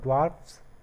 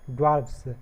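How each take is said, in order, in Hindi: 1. यह s से पहले f ध्वनि से खत्म होता है। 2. यह s से पहले v ध्वनि से खत्म होता है। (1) "जिसमें हमने केवल एस जोड़ा है" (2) "इसमें वी ई एस जोड़ करके"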